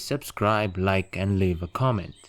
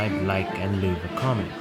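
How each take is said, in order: First: It is recorded in a quiet place, noise reduced. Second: It is recorded in a noisy place, unedited. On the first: The speaker calls it wrong. "the one in the silent place is noise reduced" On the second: The speaker calls it right. "the one in the noisy place to be unedited"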